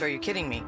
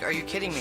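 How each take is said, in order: First: It is said in a delighted, pleased tone. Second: It is said in a sarcastic, annoyed tone.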